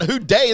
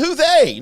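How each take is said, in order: First: The second word starts with a d sound. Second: The second word starts with a th sound. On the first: The speaker calls it wrong. "not who day" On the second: The speaker calls it right. "Then say who they"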